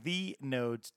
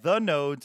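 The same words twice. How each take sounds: First: The first word is pronounced 'thee'. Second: The first word is pronounced 'thuh'. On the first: The speaker calls it right. "it's The Nodes, T-H-E-E-N-O-D-E-S" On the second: The speaker calls it wrong. "it's not The Nodes"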